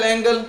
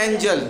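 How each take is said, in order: First: एंगल with g as in go; hard g misreading. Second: एंजल with a "j" in the middle; soft g. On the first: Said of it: "इसको एंगल नहीं पढ़ना है". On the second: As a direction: model एंजल, g softened to j. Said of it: "इसको क्या पढ़ना है". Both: Shown as a demonstration.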